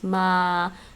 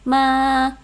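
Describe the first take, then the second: First: The syllable is said at a mid pitch. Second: The syllable is said at a high pitch. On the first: "mid level for me is ma" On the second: "high tone would be ma"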